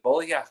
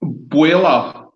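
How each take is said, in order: First: "Bolyak" said as BOL-yak, with a hard k ending; questioned pronunciation. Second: Put-on "Boila" said as BWEE-la or BOY-la, open ending; corrected pronunciation. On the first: Host checking the distillery name, questioning pronunciation. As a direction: ask "Bolyak" with a clear final k. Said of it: "let's get the name of the distillery right". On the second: Distiller correcting the host, modelled pronunciation. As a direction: give "Boila" with no k at the end. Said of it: "Let's get it right". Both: Shown as a demonstration.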